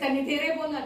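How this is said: It sounds like a command.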